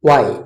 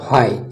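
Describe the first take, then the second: First: The h sound is not pronounced. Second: The h sound is pronounced. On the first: The speaker calls it right. "Silent" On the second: The speaker calls it wrong.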